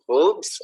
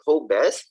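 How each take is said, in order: First: Hobbes said "hohbs", drawn out; Hobbes pronounced to rhyme with robes; Hobbes as one syllable. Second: Hobbes said "HOH-bess", drawn out; Hobbes slowly, ending in a spoken "bess"; Hobbes as two syllables. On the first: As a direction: say Hobbes slowly, with a silent e. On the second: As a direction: sound the e in Hobbes, like "ho-bes". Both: Shown as a demonstration. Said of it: "pronunciation yan".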